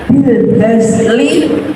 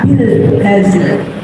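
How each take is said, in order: First: The last word ends with an 'i' vowel. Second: The last word ends on a bare consonant. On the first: The reading continues without stopping. "Contohnya bil hazli" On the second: The reading stops at this word. "dibaca bil hazl"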